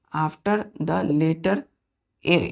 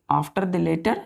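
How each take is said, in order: First: Put-on teacher reading a rule slowly for children; slow dictation. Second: Said in the usual way. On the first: Shown as a demonstration. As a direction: say after the letter very slowly, word by word. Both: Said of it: "इसमें क्या बोला है कि if".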